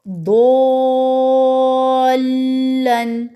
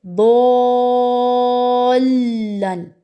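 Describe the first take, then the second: First: दोलन with the long vowel held six full counts, slow and louder; drawn-out दोलन, the madd held long and steady. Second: दोलन held six counts, then pressed hard into the doubled letter; long दोलन with a pushed stress joining the shadda; madd with nabr. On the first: Teacher reciting the Quranic example for students, long held madd. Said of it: "दो तो मैंने छः हरकत खींचा है". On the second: Teacher showing students the stressed join after the madd. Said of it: "pressure इसमें दरमियान में फील हुआ है ना". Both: Shown as a demonstration.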